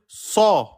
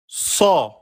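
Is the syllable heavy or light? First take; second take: heavy; heavy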